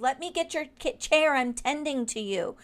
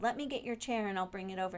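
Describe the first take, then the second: First: Higher and louder, firmly insisting; insistent offer. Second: Said in the usual way. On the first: Retold or imitated. To a guest who refused help, an insistent loud offer. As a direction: push past her refusal, raising the voice on chair. Insisting on fetching her chair.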